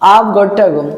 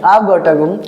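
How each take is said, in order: No difference in how they are said.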